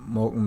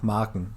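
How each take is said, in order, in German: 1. Der erste Vokal klingt wie ein o. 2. Der erste Vokal klingt wie ein a.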